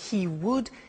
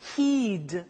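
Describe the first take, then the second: First: Two separate full words are said. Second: The words are squeezed into one syllable.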